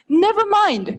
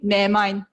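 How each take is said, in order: First: The v sound in never is pronounced. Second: The v sound in never is dropped. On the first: "Or like never mind" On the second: "the V sound, sometimes you can just omit"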